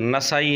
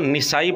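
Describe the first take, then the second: First: The first syllable has an 'a' vowel. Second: The first syllable has an 'i' vowel. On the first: The speaker calls it right. "जबकि सही लफ्ज़ नसाई है, नून पर ज़बर के साथ" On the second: The speaker calls it wrong. "Mirza जी काफ़ी अरसे तक अ, लफ्ज़ निसाई पढ़ते रहे हैं"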